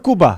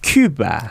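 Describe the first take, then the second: First: The word begins with a tense 'kk' sound. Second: The word begins with an aspirated 'kyu' sound. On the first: This is the original pronunciation. "원래는 꾸바죠" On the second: This is how Americans pronounce it. "미국 사람들이 항상 그 그 된소리가 발음이 안 되잖아요"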